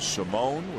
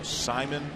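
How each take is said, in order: First: The name is said as Simone. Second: The name is said as Simon. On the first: This was the earlier way of saying the name. "which was the way he pronounced it when he was with the Orioles" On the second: This is the current way of saying the name. "Now Simon"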